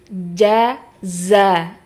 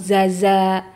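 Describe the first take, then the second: First: A j sound comes first, then z. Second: Both syllables begin with a z sound. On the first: The speaker calls it right. "harusnya jim dulu baru za" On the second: The speaker calls it wrong. "atau zaza"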